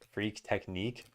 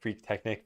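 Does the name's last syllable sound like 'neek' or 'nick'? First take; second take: neek; nick. First: The last syllable rhymes with 'freak', like 'neek'. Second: The last syllable is short, like 'nick'. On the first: The name was meant to rhyme. "did you intend for your name to rhyme?" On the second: This is the usual American reading. "that's how my American brain would pronounce this word"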